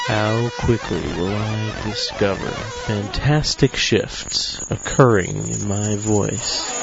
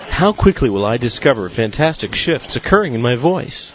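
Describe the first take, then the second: First: It is spoken at a moderate, steady pace. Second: It is spoken at a fast, steady pace.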